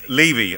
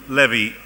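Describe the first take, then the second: First: The name is pronounced the English way. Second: The name is pronounced the Hebrew way. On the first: The speaker calls it right. "I do beg his pardon" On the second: The speaker calls it wrong. "give you the full Hebraic um, pronunciation"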